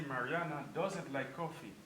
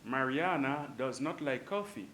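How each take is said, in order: First: "doesn't" said as one contracted word; contracted form. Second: Said in the usual way. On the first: Shown as a demonstration. Teacher showing students the short form "doesn't". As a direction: contract does not into "doesn't". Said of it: "we can say Mariana doesn't like coffee". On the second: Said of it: "but we can say Mariana doesn't like coffee".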